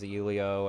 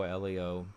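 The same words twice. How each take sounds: First: Elio said as "YOO-lee-oh"; alternative pronunciation. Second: Elio said as "ELL-ee-oh"; alternative pronunciation. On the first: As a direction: say Elio with an opening "you" sound. Unsure how the name is pronounced. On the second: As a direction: say Elio with a short open E. Second try at the name. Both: Real, not acted.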